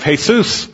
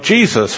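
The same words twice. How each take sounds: First: The name is said with a Spanish pronunciation. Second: The name is said with an English pronunciation. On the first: "not so good in Mexico, because they're calling upon the name of Jesus" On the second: "that works great here"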